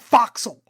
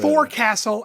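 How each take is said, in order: First: It is said clipped as foxle. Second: It is said in full as fore-castle. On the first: The speaker calls it right. "it's a foxle" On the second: The speaker calls it wrong. "It's not a forecastle"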